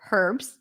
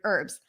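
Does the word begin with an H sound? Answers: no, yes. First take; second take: yes; no. First: The word begins with a breathy H sound. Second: The word begins directly with the vowel. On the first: "In British English, you will hear herbs" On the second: "In American English, the H is not pronounced in the word herbs"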